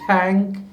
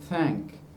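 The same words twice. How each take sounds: First: The first sound is an aspirated stop. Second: The first sound is a soft fricative. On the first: The speaker calls it wrong. "you don't say thank" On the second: The speaker calls it right. "you say thank"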